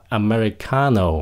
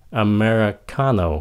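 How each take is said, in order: Both takes have the same delivery.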